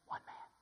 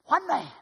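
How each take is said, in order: First: Soft low repeat; hushed. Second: ONE punched high and loud. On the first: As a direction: let it drop to a whisper. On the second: Preacher crying out to church that one man matters, loud. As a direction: hit "One" hard. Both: Real, not acted. Repeated for contrast.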